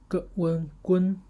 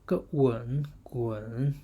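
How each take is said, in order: First: The syllable is said with the first tone. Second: The syllable is said with the third tone. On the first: "first tone" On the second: "third tone"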